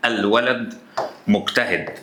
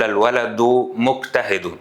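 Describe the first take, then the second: First: Said in the usual way. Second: الولد مجتهد read slowly as "al-waladu mujtahidu", each word ending in a short u; voweled case endings. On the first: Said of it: "لو أنا جيت قلت لك كده". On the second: Shown as a demonstration. Teacher showing students how formal Arabic reads, الولد مجتهد with -u endings. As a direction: sound a final damma on both words of الولد مجتهد. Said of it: "لما بنيجي نقرأ لغة عربية فبنقول".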